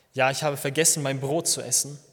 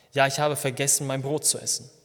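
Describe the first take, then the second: The two takes are said the same way.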